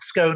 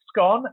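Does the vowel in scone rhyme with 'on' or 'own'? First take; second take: own; on. First: The vowel is long, rhyming with 'own'. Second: The vowel is short, rhyming with 'on'. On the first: The speaker calls it wrong. "not scone as in own" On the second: The speaker calls it right. "scone as in on"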